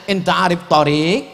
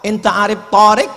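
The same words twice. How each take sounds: First: The long vowel is in the second syllable of tarik. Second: The long vowel is in the first syllable of tarik. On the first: It asks whether the driver knows the road. The speaker calls it right. "padahal yang betul mestinya dia tanya" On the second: It asks whether the driver knows a man called Tarik. The speaker calls it wrong. "Gara-gara alifnya dia pasang tarik"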